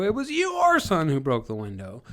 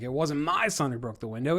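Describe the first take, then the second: First: "your" stretched out, high and louder; stress on your. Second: "my" lifted higher than the words around it; stress on my. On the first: Parent shifting guilt to someone else's son, stress on "your". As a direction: swing the blame hard onto a long, raised "your". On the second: Parent deflecting guilt from their son, stress on "my". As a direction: punch "my" to push the blame away. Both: Shown as a demonstration. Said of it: "if you emphasize certain words".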